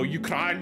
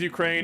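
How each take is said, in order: First: The name has a foreign, native-style pronunciation. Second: The name has a plain English pronunciation. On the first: This is the rejected, native-style name. The speaker calls it wrong. "It's not like, you know" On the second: This is the accepted name for the country. The speaker calls it right. "the country's Ukraine"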